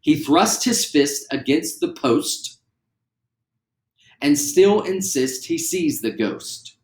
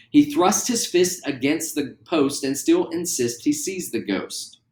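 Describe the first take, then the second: First: Slow, every consonant hit; slow and clear. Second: Said in the usual way. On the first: Shown as a demonstration. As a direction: spell out each word slowly. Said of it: "how clear you can say them". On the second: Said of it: "at a speed that works".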